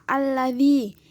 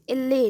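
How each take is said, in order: First: The word is said in full. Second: The word is said shortened with e vowels. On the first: This is the standard form. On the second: This is the colloquial form.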